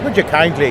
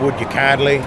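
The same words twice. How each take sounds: First: It is spoken in an Irish accent. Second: It is spoken in a Southern American accent. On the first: This is the version people know from the game. "instead of" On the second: This is the original recorded version. "it was"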